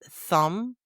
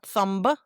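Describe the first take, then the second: First: The final B is silent. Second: The final B is pronounced. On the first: The speaker calls it right. "the silent B" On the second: The speaker calls it wrong. "Not thumba"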